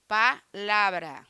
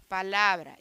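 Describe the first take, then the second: First: "Palavra" slowly split after "Pa", then a stressed "la"; split to show stress. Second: Said in the usual way. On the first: Shown as a demonstration. Teacher showing listeners the strong syllable, splitting "Palavra" before the stressed LA. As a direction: break "Palavra" into "Pa" and "LAvra", slowly. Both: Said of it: "lá é a sílaba mais forte".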